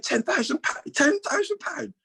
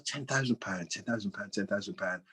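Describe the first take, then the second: First: "Ten thousand pound" squeaked much higher and slower; mock disbelief. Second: "Ten thousand pound" muttered much softer, trailing away; mumbled to himself. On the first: Chairman repeats the owed sum, in mock high-pitched disbelief. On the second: Retold or imitated. Chairman musing over the sum on the phone, softly muttering. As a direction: mull the number under your breath.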